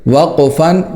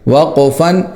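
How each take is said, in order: Both takes have the same delivery.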